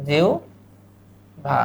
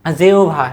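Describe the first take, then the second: First: "জিহ্বা" slow and soft, as jiu, pause, bha; pronunciation demo. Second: Said in the usual way. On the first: Shown as a demonstration. ("জিহ্বা" ধীরে জিউ-ভা করে ভেঙে বলা) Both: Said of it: "উচ্চারণ হবে এইভাবে".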